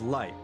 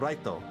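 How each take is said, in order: First: It is said as one English syllable, 'light'. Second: It is said as Japanese 'rai-to' with a tapped r. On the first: The speaker calls it right. "Light is supposed to be pronounced as Light" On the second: The speaker calls it wrong. "in Japan, they keep calling him Raito"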